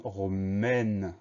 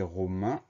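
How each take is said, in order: First: « romaine » avec un « è » ouvert puis un N sonore; son È final. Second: « romain » terminé par la voyelle nasale « in »; son IN final. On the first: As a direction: faire entendre « mène » à la fin de « romaine ». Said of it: "mais on a le son E". (« romaine », finale « ène » bien tenue, lente) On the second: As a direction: prononcer « romain » avec « in » final, sans N audible. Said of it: "on n'a plus le son in". (« romain », finale nasale « in ») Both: Shown as a demonstration.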